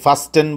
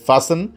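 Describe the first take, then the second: First: The t is sounded. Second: The t is silent. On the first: The speaker calls it wrong. "যথারীতি ফাস্টেন বলা যাবে না" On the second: The speaker calls it right. "বলতে হবে ফাসেন"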